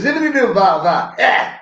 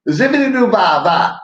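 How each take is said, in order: First: High mock soul scat; high mumbled [name] scat; [name] impression. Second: High, loud scat in [name]'s style; high scat opening of the [name] bit; [name] impression. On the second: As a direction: scat it like a soul singer. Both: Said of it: "You sound like [name]".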